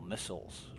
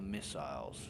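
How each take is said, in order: First: The word has an American pronunciation. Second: The word has a British pronunciation.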